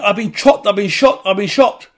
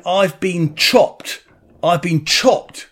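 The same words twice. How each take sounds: First: Higher, louder cry blurring "chopped" into "shot"; chopped sounding like shot. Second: Slow, drawn-out "chopped"; retold scream. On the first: Retold or imitated. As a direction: repeat urgently, letting "chopped" turn into "shot". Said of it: "The way he's saying it". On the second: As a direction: stretch out "chopped" in a half-voiced mock cry. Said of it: "Anyway, he's screaming".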